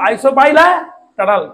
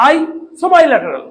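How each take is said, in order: First: আইসোবাইল্যাটারাল run together as isobailaetatal; a mock mispronounced আইসোবাইল্যাটারাল; another student's version. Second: আইসোবাইল্যাটারাল drawn out slowly, higher and louder; a slow, raised mock student take on আইসোবাইল্যাটারাল; one student's version. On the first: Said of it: "বা কেউ উচ্চারণ করলো". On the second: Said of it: "অনেকে উচ্চারণ করলো".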